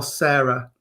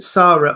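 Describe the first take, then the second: First: Sarah with an AIR vowel, SAIR-a. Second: Sarah with a long open AH, SAH-ra. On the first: Host offering the guest the other option, Sarah said as SAIR-a. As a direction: say Sarah to rhyme with "fairer". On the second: Host checking a guest's name, Sarah said as SAH-ra. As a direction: say Sarah with the first vowel of "father". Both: Shown as a demonstration. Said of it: "do you pronounce it Sarah or Sarah".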